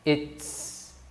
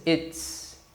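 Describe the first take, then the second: Both takes have the same delivery.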